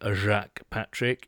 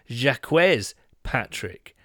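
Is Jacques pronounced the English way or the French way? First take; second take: French; English. First: Jacques is pronounced the French way. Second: Jacques is pronounced the English way. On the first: The speaker calls it wrong. "is not Jacques Patrick" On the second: The speaker calls it right. "It is Jacques Patrick, which is slightly disappointing"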